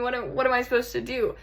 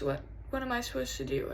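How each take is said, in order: First: Full-voiced, hurried exasperation; exasperated helplessness. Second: Soft, lost question; hushed and helpless; subdued helplessness. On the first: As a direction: throw the question out in frustration. Same question, now worked up. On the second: Acted. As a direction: ask it quietly, at a loss. First, subdued take of question.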